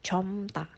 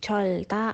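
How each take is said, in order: First: Only an m is sounded before ta. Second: Only an l is sounded before ta. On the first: The speaker calls it right. "tapi comta" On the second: The speaker calls it wrong. "bukan colta"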